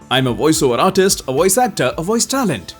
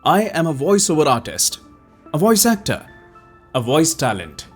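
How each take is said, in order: First: It is read at a somewhat fast pace. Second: It is read at a somewhat slow pace. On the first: "अब थोड़ा सा तेज" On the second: "अब एक थोड़ा slow pace में बोलते हैं।"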